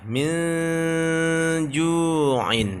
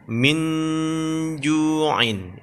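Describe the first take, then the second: First: Min ju'in with the n blurred and nasal; hidden n. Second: Min ju'in with a clear n; as written. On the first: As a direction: let the n of min melt into ju'in. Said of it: "samar dia". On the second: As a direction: read min ju'in plainly. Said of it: "kalau ditulis". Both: Shown as a demonstration.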